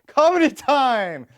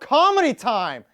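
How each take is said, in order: First: It is said in a cheerful tone. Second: It is said in an angry tone. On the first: The speaker calls it right. "That's better" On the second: The speaker calls it wrong. "I don't know if that was that sounded angry"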